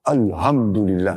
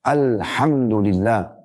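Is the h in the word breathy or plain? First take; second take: plain; breathy. First: The h is plain, without the breathy friction. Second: The h is breathy, with air escaping. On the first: Death is for God. The speaker calls it wrong. "hanya menjadi ha" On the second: All praise is for God. The speaker calls it right. "Pakai ha, ha, sedikit angin keluar"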